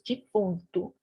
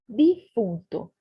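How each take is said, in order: First: It is pronounced with a Portuguese sound. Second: It is pronounced with a Spanish sound. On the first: "a gente diz defunto" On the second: "Outra palavra que se escreve igual e soa diferente"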